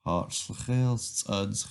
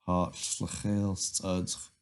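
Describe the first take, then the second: First: Hartelijk studge said slowly, stress on Hartelijk; teacher greeting the nettle for students to repeat; slow greeting for repetition. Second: Hartelijk studge said slowly, stress on Hartelijk; teacher repeating the greeting for the class; slow greeting for repetition. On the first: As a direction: model Hartelijk studge at half speed. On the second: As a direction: model Hartelijk studge at half speed again. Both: Shown as a demonstration. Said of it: "repeat after me".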